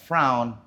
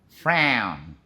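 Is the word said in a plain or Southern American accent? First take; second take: plain; Southern. First: It is said in a plain, non-Southern accent. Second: It is said with a drawling Southern American accent. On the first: The speaker calls it wrong. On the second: The speaker calls it right.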